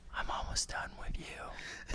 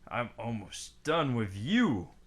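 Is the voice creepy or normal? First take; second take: creepy; normal. First: It is said in a creepy put-on voice. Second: It is said in a normal speaking voice.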